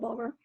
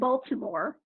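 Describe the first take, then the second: First: The name is clipped into a short local form. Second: Every syllable of the name is clearly pronounced. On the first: "if you're from actual Baltimore" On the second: "I'm enunciating our city's name"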